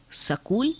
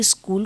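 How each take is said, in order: First: "सकूल" with a vowel between s and k; Punjabi pronunciation. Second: Said in the usual way. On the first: Shown as a demonstration. Lecturer showing Punjabi form of school, "सकूल" as sa-kool. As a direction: break the cluster, "सकूल" as sa-kool. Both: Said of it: "Punjabi स्कूल को सकूल".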